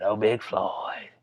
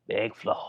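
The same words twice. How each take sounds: First: Slow drawn-out. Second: "Big Floyd" breathed as a whisper. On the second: Vlogger repeats the name to his viewers, whispering. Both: Shown as a demonstration.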